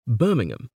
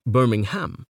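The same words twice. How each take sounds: First: "Birmingham" with a reduced ending, BIR-ming-um; English pronunciation. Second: "Birmingham" with a full final HAM; Alabama pronunciation. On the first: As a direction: swallow the last syllable of "Birmingham" to -um. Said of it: "In the English Midlands". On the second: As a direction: sound out BIR-ming-HAM in "Birmingham". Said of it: "but in Alabama, it is usually". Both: Shown as a demonstration.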